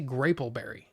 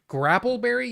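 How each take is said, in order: First: The first vowel is a long 'a' as in 'grape'. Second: The first vowel is a short 'a' as in 'cat'. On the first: "you don't eat graps, you eat grapes" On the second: "the short A would make more sense given the P P"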